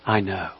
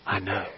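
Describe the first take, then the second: First: Softer, lower; hushed Jesus voice; softened quote. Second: Much softer, lower; quiet solemn Jesus voice; hushed quote. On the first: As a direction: say it gently and low. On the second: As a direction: let it fall to near silence. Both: Acted.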